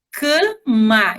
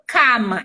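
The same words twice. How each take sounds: First: "cama" slowly, first a closed and nasal, "cã-ma"; natural nasal vowel. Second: "cama" with an open, oral first a, "cá-ma"; pronounced as spelt. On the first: Teacher showing the spoken form, "cama" with nasal "cã". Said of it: "eu falo cama". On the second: Teacher showing what we don't say, "cama" with open "cá". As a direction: say "cama" as written, with "ca" as in "cachorro". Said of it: "mas eu não falo cama". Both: Shown as a demonstration.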